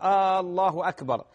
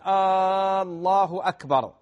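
First: The first vowel of Allah is short. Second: The first vowel of Allah is drawn out. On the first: It is a statement. The speaker calls it right. "قل الله أكبر" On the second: It becomes a question. The speaker calls it wrong. "لأن هذا استفهام إنكاري"

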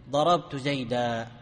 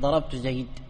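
First: The last word ends on a long 'a' vowel. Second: The last word ends on a bare 'd' sound. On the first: The speaker calls it right. "عند الوقف تقول ضربت زيدا" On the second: The speaker calls it wrong. "ما قلت ضربت زيد"

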